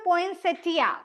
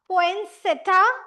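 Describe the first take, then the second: First: The word ends 'settia', with an 'ee' sound. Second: The word ends 'setta', with no 'ee' sound. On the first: "कुछ कुछ places पे पोइंसेटिया" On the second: "कुछ कुछ places पे आई को silent माना जाता है"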